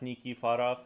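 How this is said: The name is said with A vowels, Belarusian-style.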